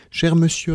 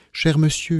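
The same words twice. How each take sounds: First: Higher-pitched imploring address; mildly suppliant, pitch well up; pleading. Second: Higher-pitched placating address; mild appeal for calm, pitch lifted; trying to calm. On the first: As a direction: beg him to listen. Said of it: "répétai-je d'un air suppliant". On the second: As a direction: gently try to stop an angry man. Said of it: "pour chercher à le calmer". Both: A narrator's reading.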